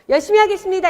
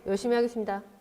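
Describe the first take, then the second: First: It is said smiling, with a bright voice. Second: It is said unsmiling, with a flat voice. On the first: The speaker calls it right. "웃어야 입꼬리도 올라가서 목소리도 예뻐져요" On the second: The speaker calls it wrong. "안 되잖아요"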